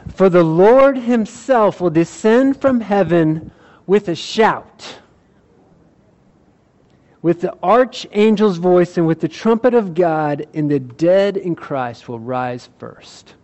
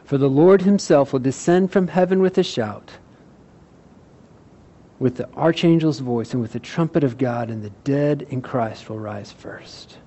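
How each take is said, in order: First: It is read with passion and energy. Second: It is read in a calm, plain way.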